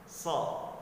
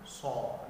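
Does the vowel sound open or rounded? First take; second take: open; rounded. First: The lips stay spread, giving an open vowel. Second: The lips push forward, giving a rounded o-vowel. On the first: The speaker calls it right. "sambil tersenyum" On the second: The speaker calls it wrong. "jangan sampai mulut kita monyong ke depan"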